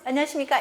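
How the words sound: It is said at the highest pitch level. "솔"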